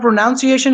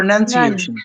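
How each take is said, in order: First: The second syllable sounds like 'noun'. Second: The second syllable sounds like 'nun'. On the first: The speaker calls it wrong. "it's not pronunciation" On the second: The speaker calls it right. "It's none. N U N"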